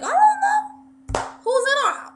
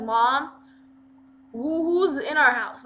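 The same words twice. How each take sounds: First: Loud, high New York mom; mom's New York accent, pitched way up and loud. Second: A hint of a brother calling, slightly raised; lightly voiced brother, calling with some force. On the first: Retold or imitated. Mom answering her son, shrill-high New York accent. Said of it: "she has a New York accent". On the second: Brother asking Mom who is inside, lightly raised call. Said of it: "he's just like".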